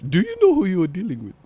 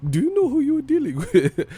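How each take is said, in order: First: Higher, quick, theatrical threat; mock villain asking who you're dealing with; put-on menacing voice. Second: Much higher, squeaky theatrical threat; much higher mock villain asking who you're dealing with; extreme put-on voice. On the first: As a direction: ham up a cartoon threat. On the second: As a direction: push the cartoon threat way up high. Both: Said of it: "why are you talking like that".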